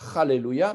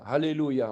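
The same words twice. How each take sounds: First: The word begins with a guttural ch sound. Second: The word begins with a soft h sound. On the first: It curses God. The speaker calls it wrong. "si on commence avec la lettre chet" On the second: It praises God. The speaker calls it right. "on met un hé"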